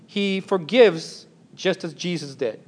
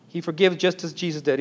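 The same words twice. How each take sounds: First: "forgives" leaned on and drawn out slowly; slow down and stress "forgives"; slow, emphatic statement with "forgives" stressed; slow emphasis. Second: Said in the usual way. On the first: Shown as a demonstration.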